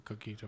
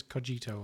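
First: Cogito with a g as in "geese"; hard g in cogito. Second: Cogito with a j sound; soft g in cogito. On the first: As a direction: say cogito as "ko-GHEE-toh". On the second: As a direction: say cogito as "koh-JEE-toh". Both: Shown as a demonstration. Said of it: "I don't know if it's cogito or cogito".

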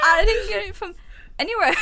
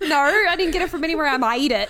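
First: Laughing, hammed-up Aussie impression; Australian accent attempt. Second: Quick, laughing copy of an Aussie attempt; imitating the accent. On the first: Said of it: "Not a clue how to do Australian accents". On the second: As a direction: parrot a clumsy Australian accent, fast and giggly. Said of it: "The way you said that, no, I made it".

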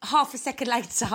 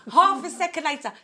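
First: Said in the usual way. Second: Laughing. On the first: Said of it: "she wrote". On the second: Retold or imitated. Retelling mum's reply, laughing.

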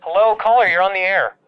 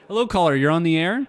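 First: Louder DJ call-in greeting; radio host voice. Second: Upbeat DJ greeting; radio host voice. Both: Acted.

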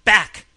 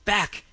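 First: Very loud, high barked command; explosive shouted order; roar. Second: Raised, loud growling command; forceful repeated warning, pitched up; tigerish roar. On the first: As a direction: roar a sudden warning. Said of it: "he roared". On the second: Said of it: "he repeated in a tigerish roar". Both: A narrator's reading.

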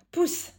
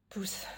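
First: High, loud squeal; squealed push. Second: Said in the usual way. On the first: Acted. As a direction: yelp it out while tickled. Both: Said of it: "Non, sérieux, stop".

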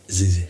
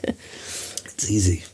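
First: Said in the usual way. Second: Whispered and very slow; breathy aside. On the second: Pretend. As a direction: breathe it out slowly under the voice. Mocking shouting at Alexa.

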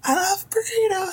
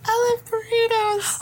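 First: Squeaky, very high mouse voice; tiny mouse voice. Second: High, slow squeaky mouse voice. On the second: Player copies mouse voice. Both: Acted.

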